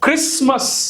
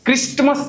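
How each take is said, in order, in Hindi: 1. T मौन रहता है। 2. T बोला जाता है। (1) "Now these are the places where T is silent" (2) "નથી"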